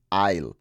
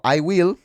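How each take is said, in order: First: "I'll" run together into one low, short syllable; teacher shows how natives actually say it; contracted I'll. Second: "I will" lifted high, each word separate; teacher sets the full I will against the contraction; full form, not used. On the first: One clipped syllable, said lower. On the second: Two separate words, pitched up. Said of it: "no dicen "I will". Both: Shown as a demonstration.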